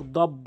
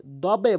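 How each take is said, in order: First: "দব" closed on a plain b; common mispronunciation. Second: "দবে" with the b released into a short echo; correct bounced ending. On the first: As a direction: stop "দব" without the bouncing release. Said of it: "অধিকাংশ লোক দব বলে". (ধাক্কা ছাড়া "দব") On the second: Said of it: "দবে বলতে হবে". (ধাক্কা দিয়ে "দবে") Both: Shown as a demonstration.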